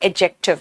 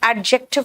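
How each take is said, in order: First: The d sound is left silent. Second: The d sound is clearly pronounced. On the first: The speaker calls it right. "D silent है" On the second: The speaker calls it wrong. "इसको एडजेक्टिव नहीं कहना"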